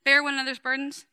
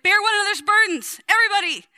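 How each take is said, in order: First: Said in the usual way. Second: Hammed-up apostle yelling at the church; wild Paul shout. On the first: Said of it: "Galatians six talks about bearing". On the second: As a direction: Bear one another's burdens shouted high and loud. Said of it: "He gets wild".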